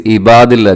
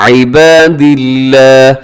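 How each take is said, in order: First: इबादिल्ला opening on a plain "i", no ayn; quick Urdu-style इबादिल्ला; wrong pronunciation. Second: इबादिल्ला with throaty ayn and light L; slow इबादिल्ला, long vowels, thin L; correct tajweed. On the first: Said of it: "रखने से इबादिल्ला नहीं पढ़ना". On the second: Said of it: "इबादिल्ला में आइन का ख्याल". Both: Shown as a demonstration.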